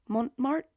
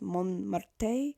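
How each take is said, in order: First: The name is said in an English-sounding way. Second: The name is said in a French-sounding way. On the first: This is the habitual family pronunciation. "I've just always pronounced it Montmartre" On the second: This is how the brand intends it. "it's actually supposed to be pronounced Montmartre, uh, because it's like fake French"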